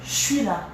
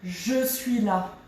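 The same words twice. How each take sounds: First: It is said fast and reduced. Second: It is said slowly and fully.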